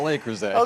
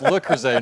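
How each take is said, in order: First: The name is said with English-style pronunciation. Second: The name is said with French pronunciation. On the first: The speaker calls it wrong. "not Le Creuset" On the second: The speaker calls it right. "It's Le Creuset"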